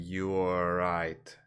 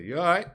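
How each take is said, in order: First: "You are right" drawn out slowly, each word separate; full form. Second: "You all right" run together, high, rising at the end; slang pronunciation. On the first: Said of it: "you're not saying". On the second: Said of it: "you say". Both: Shown as a demonstration.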